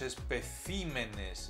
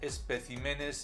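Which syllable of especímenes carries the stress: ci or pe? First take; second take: ci; pe. First: The stress is on the syllable ci. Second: The stress is on the syllable pe. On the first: The speaker calls it right. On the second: The speaker calls it wrong.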